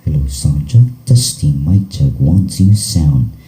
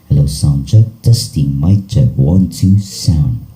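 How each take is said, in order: No difference in how they are said.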